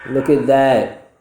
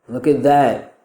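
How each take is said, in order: No difference in how they are said.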